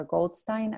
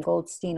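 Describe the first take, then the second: First: Goldstein ending in "stine"; stine pronunciation. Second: Goldstein ending in "steen"; steen pronunciation. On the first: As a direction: say Goldstein as GOLD-stine, rhyming with fine. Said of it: "Goldstein or Goldstein". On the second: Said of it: "if you pronounce his name". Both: Shown as a demonstration.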